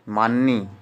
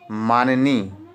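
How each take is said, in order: First: "माननी" run together as maan-nee; two-syllable form. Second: "माननी" in three syllables, maa-ni-nee; three-syllable form. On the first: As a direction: drop the middle vowel in "माननी". ("माननी" को मान्-नी बोलें) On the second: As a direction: put an i after maa in "माननी". ("माननी" को मा-नि-नी बोलें) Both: Shown as a demonstration. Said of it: "इस तरह से नहीं".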